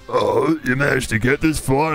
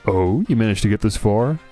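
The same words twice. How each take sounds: First: It is read in a put-on character voice. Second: It is read in the speaker's ordinary voice.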